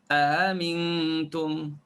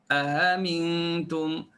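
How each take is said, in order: Both takes have the same delivery.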